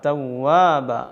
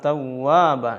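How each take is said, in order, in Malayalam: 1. w എന്നത് വൃത്താകൃതിയിലുള്ള ചുണ്ടുകൊണ്ടുണ്ടാക്കുന്ന യഥാർത്ഥ w ആണ്. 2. w എന്നത് വൃത്താകൃതിയിലുള്ള ചുണ്ടുകൊണ്ടുണ്ടാക്കുന്ന യഥാർത്ഥ w ആണ്.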